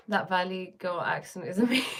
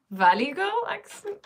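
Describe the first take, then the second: First: Said in the usual way. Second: Laughing, high-pitched incredulous question; amused disbelief. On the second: Real, not acted. Host reacting to a viewer's comment on her accent, amused disbelief. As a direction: echo it back in real, laughing surprise.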